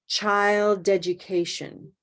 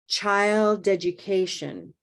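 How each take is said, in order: Both takes have the same delivery.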